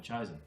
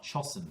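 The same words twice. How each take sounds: First: "chosen" said "CHOH-zen", long o and a buzzing z; "chosen" sounded as "choh-zun"; correct long o. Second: "chosen" said "CHOSS-en", short o as in "top", hard s; "chosen" sounded out as "choss-un"; misreading with a short o. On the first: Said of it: "move the split over behind the O". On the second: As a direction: read "chosen" wrongly with a short o and a hissed s. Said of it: "you'll go". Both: Shown as a demonstration.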